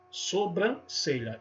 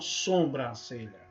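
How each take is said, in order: First: The first vowel is oral, not nasal. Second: The first vowel is nasalized, like sombra. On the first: The speaker calls it right. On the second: The speaker calls it wrong. "e não"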